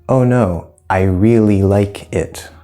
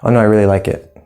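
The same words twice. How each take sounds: First: The sentence is spoken slowly. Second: The sentence is spoken quickly. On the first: "I slow it down, you can understand" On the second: "When I speak quickly, maybe not"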